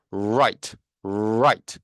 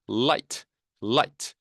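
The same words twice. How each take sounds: First: "right" with a drawn R from the back; R resonating inside. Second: "light" with a clear forward L; L resonating in front. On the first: Teacher drilling R against L, inward R in "right". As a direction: ring the R of "right" deep inside the mouth. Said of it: "안쪽에서 울리죠". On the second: Teacher drilling L against R, forward L in "light". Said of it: "앞쪽에서 울립니다". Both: Shown as a demonstration.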